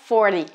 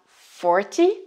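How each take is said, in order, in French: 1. La consonne du milieu est un D doux. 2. La consonne du milieu est un T net. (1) "à force de parler vite, le T devient D Y" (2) "on prononce bien le T Y"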